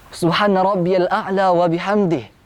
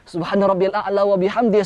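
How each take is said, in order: First: It is said calmly, with a breath afterwards. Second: It is rushed, run on without a breath. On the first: The speaker calls it right. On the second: The speaker calls it wrong. "Jangan langsung dikejar dengan satu nafas"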